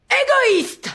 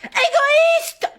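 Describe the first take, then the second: First: High shouted insult, hammed-up dictation; mock shout. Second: Very high crying shout; dramatic shout. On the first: Teacher dictating, acting out the line with a high shout. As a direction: fling the word like a wronged lover. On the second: Acted. Teacher dictating, screaming the word with a sob. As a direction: scream it like a heartbroken diva. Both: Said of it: "ça va pas de crier comme ça".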